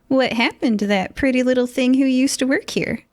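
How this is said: It is spoken in a Southern accent. The speaker calls it wrong. "Darn it, I just went Southern"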